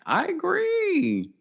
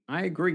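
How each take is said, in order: First: Drawn-out agree. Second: Said in the usual way. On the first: Real, not acted. Strong agreement with commenter.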